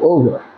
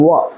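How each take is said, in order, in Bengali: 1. শব্দটি পুরোপুরি উচ্চারিত হয়, দুটি সিলেবলে। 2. শব্দটিকে একটি সিলেবলে চেপে বলা হয়। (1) "তুমি যদি ওভার বলো না গাইয়া মাস্টার মরে যাবে" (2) "so far as I remember it is wa"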